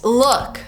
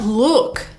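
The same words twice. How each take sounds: First: The vowel is short, like in foot. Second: The vowel is long, like in food. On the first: The speaker calls it right. "it's look" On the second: The speaker calls it wrong. "it's not look"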